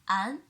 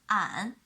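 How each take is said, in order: First: The pitch rises from middle to high. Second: The pitch dips low and then rises. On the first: "The second tone" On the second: "The third tone"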